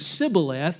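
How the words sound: It begins with an s sound, Ephraimite-style.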